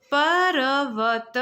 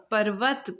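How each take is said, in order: First: पर्वत said very slowly and louder, र before व; drawn-out pronunciation. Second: Said in the usual way. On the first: Shown as a demonstration. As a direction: stretch पर्वत to show the र. (पर्वत को धीरे और ज़ोर से खींचकर बोलना) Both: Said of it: "पहले र का उच्चारण आ रहा है".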